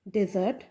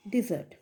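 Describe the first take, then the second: First: ডেজার্ট said DEH-zart, open e first; first-syllable "de". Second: ডেজার্ট said di-ZART, i in first syllable. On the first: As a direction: say ডেজার্ট with "de" as in den. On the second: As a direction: say ডেজার্ট with "di" as in dip. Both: Shown as a demonstration. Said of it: "এদের প্রনাউন্সিয়েশনটাও একটু differ করছে".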